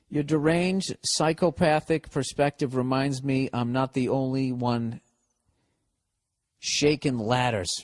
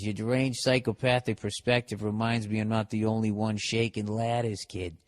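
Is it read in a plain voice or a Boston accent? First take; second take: plain voice; Boston accent. First: It is read in a plain, ordinary voice. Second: It is read in a Boston accent.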